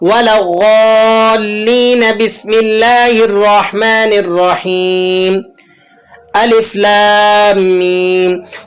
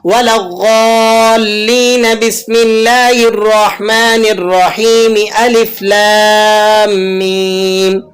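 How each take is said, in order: First: A breath pause comes before alif lam mim. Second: All of it is read in one breath.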